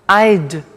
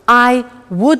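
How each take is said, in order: First: The words are shortened into one syllable. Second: Both words are said fully and separately. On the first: "in the positive form, we contract" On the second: "I would like becomes I'd"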